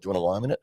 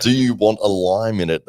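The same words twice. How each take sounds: First: "Do you want a lime in it" run into one quick word; unintelligible Australian question. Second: Loud, higher, each word distinct; spelled-out question. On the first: Imitating the Australian at the airport, hurried and slurred. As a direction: slur "want a lime in it" together, rising at the end. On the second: Quoting the airport question for listeners, clearly enunciated. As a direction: say "Do you want a lime in it" loudly, word by word. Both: Retold or imitated. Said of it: "I have no idea what this guy's saying".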